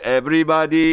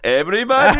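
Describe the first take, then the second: First: The voice stays level or falls at the end. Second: The voice rises at the end.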